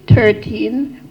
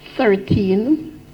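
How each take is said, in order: First: It begins with a plain 't' sound. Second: It begins with a 'th' sound, tongue between teeth. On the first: The speaker calls it wrong. "somebody gave us thirteen more than once" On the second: The speaker calls it right. "some little words like thirteen"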